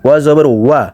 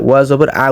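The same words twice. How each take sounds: First: ওয়া with a full rounded w glide; correct wa. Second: ওয়া জবর আ ending on "a" without w; mistaken bare a. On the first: Teacher correcting the error, ওয়া as full "wa". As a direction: end ওয়া জবর ওয়া on a clear "wa". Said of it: "ওয়া জবর আ উচ্চারণ করে ফেলে". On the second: Teacher showing everyone's error, final আ without w. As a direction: drop the w on final আ. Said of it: "সবাই করে". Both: Shown as a demonstration.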